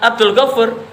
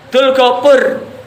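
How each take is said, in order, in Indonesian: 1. Nama itu diucapkan lengkap. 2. Bagian pertama nama itu dipotong. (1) "bukan disebut dengan Abdul Ghafur" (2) "Lidah Jawa itu"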